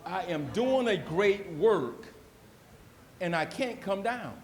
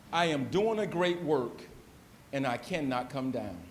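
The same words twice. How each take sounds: First: Slower, weightier second reading of "I am doing a great work"; preacher repeating the verse with fervor; slow emphatic repeat. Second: Said in the usual way. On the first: Retold or imitated. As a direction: lean into "doing" and draw it out. Repeats Jeremiah quote emphatically.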